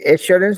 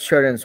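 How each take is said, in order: First: The first vowel is a full 'ay' sound. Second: The first vowel is a weak 'uh' sound. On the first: The speaker calls it wrong. "ये एश्योरेंस नहीं बोल करके" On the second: The speaker calls it right. "अश्योरेंस बोल रहा है"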